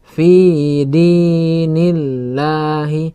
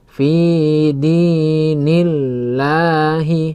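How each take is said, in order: The two takes are said the same way.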